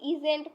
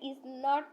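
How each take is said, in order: First: It is said as one contracted word. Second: It is said as two full words. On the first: The speaker calls it wrong. "অনেকে আছে ইজেন্ট পড়ে, এটা ইজেন্ট কিন্তু সঠিক বানান না" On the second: The speaker calls it right. "আমাদের ইজ নট পড়তে হবে"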